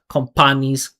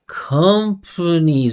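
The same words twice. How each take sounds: First: The P is released with a strong burst. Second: The P is released softly and lightly. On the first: The speaker calls it wrong. "when you create that perfect P, that explosion" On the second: The speaker calls it right. "that P is soft"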